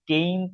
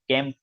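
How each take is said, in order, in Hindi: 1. स्वर लंबा है, 'ay' जैसा। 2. स्वर छोटा है, 'cat' में 'a' जैसा। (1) "उसमें हम कैंप नहीं बोलते हैं" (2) "कैंप बोलते हैं उसको"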